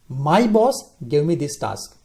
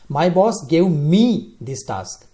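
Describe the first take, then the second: First: The stress is on "boss". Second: The stress is on "me".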